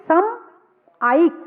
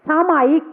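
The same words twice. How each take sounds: First: सम and आयिक said apart with a pause; split into parts. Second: Said in the usual way. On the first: Shown as a demonstration. Preacher splits the word for listeners, syllable by syllable. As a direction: break सामायिक into सम, pause, आयिक. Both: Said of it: "सामायिक होगी".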